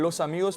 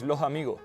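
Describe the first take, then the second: First: The syllable-final s sounds are clear s sounds. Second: The syllable-final s sounds sound like h.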